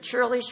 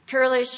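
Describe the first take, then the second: First: The word begins with a ch sound. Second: The word begins with a hard k sound. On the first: "we're used to saying churlish" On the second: "some pronounce it curlish"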